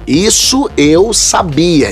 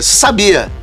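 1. Cada palavra é articulada de forma clara e separada. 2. As palavras estão fundidas em um bloco só, arrastado. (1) "a gente tem que voltar pra eu articular mais" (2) "quando juntam, isso eu sabia, eu viro"

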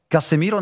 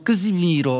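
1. Casemiro wymawia się zwyczajnie, po polsku. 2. Casemiro wymawia się po brazylijsku, tak jak w brazylijskim portugalskim.

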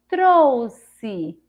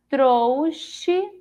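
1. A consoante do meio tem som de s. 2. A consoante do meio tem som de ch. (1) "Com o som de Si" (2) "Com o som de C H"

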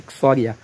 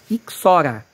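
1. Tem um som 'ee' extra antes da vogal final. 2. Não tem som extra antes da vogal final. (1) "a gente fala Ixoria, porque eu acho que é mais fonético" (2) "Mas não é Ixoria, é Ixora"

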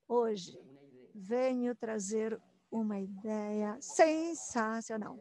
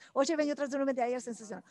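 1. A frase é falada muito devagar e arrastada. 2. A frase é falada rapidamente. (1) "Começo bem devagar, como se fosse uma história de suspense" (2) "E assim, cada vez mais rápido"

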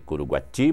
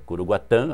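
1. O nome termina em som de i simples. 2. O nome termina em som de a nasal. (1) "está aqui Curuguati" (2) "mas é Curuguatã, a pronúncia correta"

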